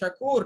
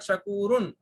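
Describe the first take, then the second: First: The word ends on a bare consonant. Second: The word ends with a vowel and nasal. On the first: The speaker calls it right. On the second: The speaker calls it wrong.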